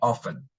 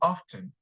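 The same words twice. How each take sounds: First: The word is said in an American accent. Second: The word is said in a British accent. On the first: "if you want to sound American, we say often" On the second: "with a British accent, they say often"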